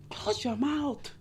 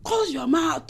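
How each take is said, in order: First: Slow, soft, deliberate order; slow firm command. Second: Raised commanding call to shut it; sharp command. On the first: Vlogger telling women to hush, slow and soft. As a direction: spell it out slowly. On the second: Advice vlogger snapping at a mouthy woman, commanding. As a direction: order her to close her mouth. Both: Acted.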